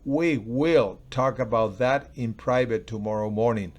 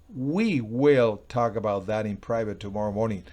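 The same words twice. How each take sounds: First: The word will carries the strongest stress. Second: The word we carries the strongest stress. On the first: It matters that the talk will really happen. "O lo puedo decir, we will" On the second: Only the two of us, not others, will talk. "Nosotros, o sea, no es tú con ellos, ni es ellos"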